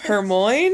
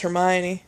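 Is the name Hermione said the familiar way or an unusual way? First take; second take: unusual; familiar. First: The name is said with an unusual pronunciation. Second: The name is said with its familiar pronunciation. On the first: The speaker calls it wrong. "I think that's what I used to say" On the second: The speaker calls it right. "Hermione was pronounced Hermione"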